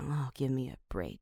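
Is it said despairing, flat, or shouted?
despairing. It is said in a despairing, breaking-down way.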